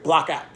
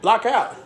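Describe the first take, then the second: First: Said in the usual way. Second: Coach's practice yell. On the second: Retold or imitated. Coach yelling at players who missed the box-out, sharp. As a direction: yell it across the gym at a player.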